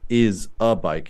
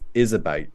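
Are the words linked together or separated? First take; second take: separated; linked. First: The words are said separately without linking. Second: The final consonant links into the next vowel. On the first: The speaker calls it wrong. "It's not" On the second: The speaker calls it right. "it's ... this final consonant sound with the next vowel sound"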